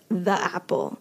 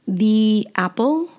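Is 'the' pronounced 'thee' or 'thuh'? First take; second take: thuh; thee. First: The word 'the' is said with a short 'uh'. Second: The word 'the' is said with a long 'ee'. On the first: This is how casual native speakers talk. "Native speakers will probably just say" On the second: This follows the careful general rule. "the sound E is pronounced E"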